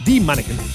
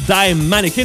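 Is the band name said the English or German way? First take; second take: German; English. First: The name is said with German-style pronunciation. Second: The name is said with English-style pronunciation.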